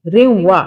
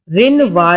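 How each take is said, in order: First: روا with the nun merged into a light nasal hum before وا. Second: رنوا with a clear full n sound before وا; wrong full nun. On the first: Qaida teacher gives the correct روا with light nasal ghunna. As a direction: say روا, nun only a slight nasal glide. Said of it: "ہلکی سی نون کی sound آئے گی". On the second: Qaida teacher demonstrates the wrong reading رنوا with full nun. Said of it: "نہیں پڑھیں گے". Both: Shown as a demonstration.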